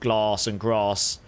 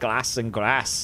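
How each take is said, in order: First: The A sounds long, as if followed by R. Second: The A is said with a northern English accent. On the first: "they are near enough to London that they will say ... with like like uh, like an R" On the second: "if you go to like the middle of the country upwards"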